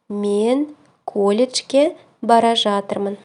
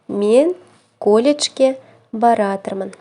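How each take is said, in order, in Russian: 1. Глагол произносится полностью: bara zhatyrmyn. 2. Глагол сокращается до одного слова: baratyrmyn.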